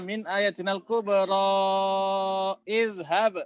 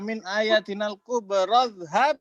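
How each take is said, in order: First: The long vowel and the hamza are both pronounced. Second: The long vowel drops and the words join. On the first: The speaker calls it wrong. "Bukan dibaca min ayatinal kubra izhab" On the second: The speaker calls it right. "kenapa di sini dibaca min ayatinal kubradhab?"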